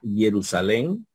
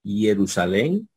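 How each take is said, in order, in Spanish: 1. Usa las vocales del griego erasmiano. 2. Usa las vocales del griego erasmiano.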